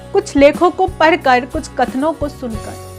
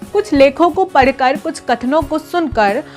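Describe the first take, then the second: Both takes have the same delivery.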